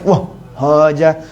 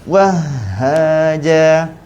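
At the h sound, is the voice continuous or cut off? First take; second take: cut off; continuous. First: The voice breaks off before the h sound. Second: The voice flows on through the h sound. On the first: The speaker calls it wrong. "jangan stop, jangan sampai wah haja" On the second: The speaker calls it right. "Kita kena bagi hati. Jadi masuk masuk sikit-sikit"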